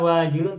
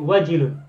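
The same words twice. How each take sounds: First: The first vowel is drawn out long. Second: The first vowel is kept short. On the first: The speaker calls it wrong. "bukan wajilun" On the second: The speaker calls it right. "tapi wajilun. Tak panjang"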